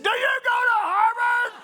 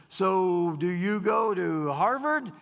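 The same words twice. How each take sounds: First: Shouted question. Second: Said in the usual way. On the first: Retold or imitated. Bob yelling the question back at the Boston waitress, full shout. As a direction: yell it, much higher and louder.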